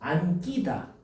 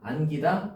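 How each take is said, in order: First: The 기 syllable starts with a tensed consonant. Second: The 기 syllable starts with a plain consonant. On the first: The speaker calls it wrong. "이렇게 해야 될 거잖아" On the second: The speaker calls it right. "아니라는 거지"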